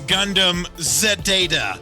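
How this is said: Zeta starts with the sound 'zed'. "the Canadian Z"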